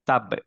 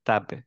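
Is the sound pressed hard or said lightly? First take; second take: pressed hard; light. First: It is said with heavy lip pressure. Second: It is said lightly with open lips. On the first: The speaker calls it wrong. "এরকম কিন্তু হবে না, প্রেসার পড়বে না উপরটা থেকে" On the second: The speaker calls it right. "তাপবে এরকম হবে"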